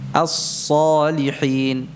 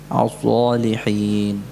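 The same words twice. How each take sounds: First: The hissing s sound is sharp and strong. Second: The hissing s sound is weak and dull. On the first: The speaker calls it right. "Jadi harusnya suaranya tajam" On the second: The speaker calls it wrong. "Jadi sifat shafirnya ini lemah. Jadi tidak tajam lagi"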